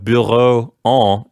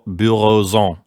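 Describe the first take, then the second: First: The words are said with no linking z sound. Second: A z sound links the first word to the second. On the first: "instead of bureau en" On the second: "make a liaison and pronounce the X like a Z"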